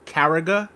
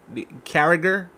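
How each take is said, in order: First: Carragher with the final r dropped, ending in "guh"; alternative pronunciation. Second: Carragher ending in an audible r, drawn out as a question; trying the name. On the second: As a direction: say "Carragher" slowly, sounding the final r. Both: Shown as a demonstration. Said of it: "I don't know how to say his name".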